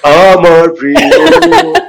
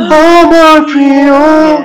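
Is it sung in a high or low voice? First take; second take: low; high. First: It is in a lower, natural register. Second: It is in a high register.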